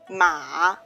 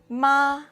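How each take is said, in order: First: The pitch dips low, then rises. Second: The pitch stays high and level. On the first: "it's a falling rising tone, or the dipping song, dipping tone" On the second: "The first tone is high and flat"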